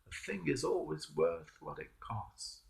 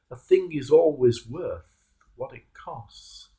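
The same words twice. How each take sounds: First: The maxim again, much softer; softer reflective repeat. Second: Said in the usual way. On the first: Shown as a demonstration. Preacher repeats his maxim to the congregation, softly. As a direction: let it sink in quietly.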